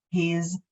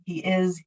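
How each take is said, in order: First: He's as one syllable; "he's" said as a contraction; contracted form. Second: "he is" as two separate words; "he is" without contracting; full uncontracted form. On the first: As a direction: run "he's" together as a single contracted word. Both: Shown as a demonstration. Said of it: "how you do your contraction".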